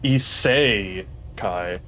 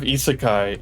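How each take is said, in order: First: The 'se' syllable is strongly emphasized. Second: The 'se' syllable is said plainly, without emphasis.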